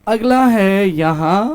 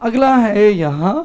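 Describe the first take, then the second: Both takes have the same delivery.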